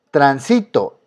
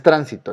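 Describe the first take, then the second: First: Transito said tran-SI-to; stress on middle syllable. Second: Tránsito stressed on TRAN; stress on first syllable. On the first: Teacher asking where the strong syllable is, stressed SI in transito. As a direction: put the weight on si in transito. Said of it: "En este caso está en sí". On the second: Teacher ruling out that reading, stress on TRAN in tránsito. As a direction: hit tran at the start of tránsito. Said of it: "porque no es tránsito". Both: Shown as a demonstration.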